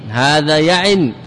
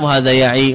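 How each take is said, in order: First: يعن slowly closed with n, yaʕin; tanween ending. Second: يعي ending in a long ī, no n; final ي kept. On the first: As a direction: end يعن on the nasal n. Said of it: "منه الياء للتنوين". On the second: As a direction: hold the last vowel of يعي. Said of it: "بإثبات الياء". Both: Shown as a demonstration.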